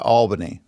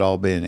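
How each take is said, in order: First: Albany as AWL-buh-nee, stress on the first syllable; outsiders' pronunciation. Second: Albany as all-BINNY, stress on the second syllable; local pronunciation. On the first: Guest showing how other people say it, outsiders' pronunciation. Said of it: "other people would call it". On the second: Guest showing how locals say it, local pronunciation. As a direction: say Albany the South Georgia way, "all-BENNY". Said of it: "But we call it". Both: Shown as a demonstration.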